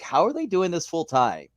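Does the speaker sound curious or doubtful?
doubtful. It sounds doubtful and incredulous. It seems impossible to do. "I would say it like that"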